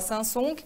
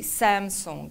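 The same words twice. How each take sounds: First: It is said with a Portuguese pronunciation. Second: It is said with an English pronunciation. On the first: "Em português, a gente fala Samsung" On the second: "In English, we say Samsung"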